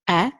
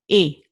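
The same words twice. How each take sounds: First: The vowel is open, like in best. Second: The vowel is closed, like in way. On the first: "open E, like for example the word best" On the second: "the closed E, like in the word way"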